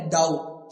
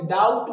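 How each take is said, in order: First: डाउट as "daut", silent B; डाउट without a "b" sound; correct pronunciation. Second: डाउट with B sounded before T; डाउट said as "dau-b-t"; wrong pronunciation. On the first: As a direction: go straight to the T in डाउट. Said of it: "क्या बोलेंगे?". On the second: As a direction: loudly put a "b" into डाउट. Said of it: "डाउट नहीं". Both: Shown as a demonstration.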